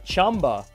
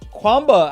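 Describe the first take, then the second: First: The name begins with a 'ch' sound. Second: The name begins with a 'kw' sound. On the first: The speaker calls it right. "That's how we're supposed to pronounce it the proper way" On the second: The speaker calls it wrong. "I'm sorry"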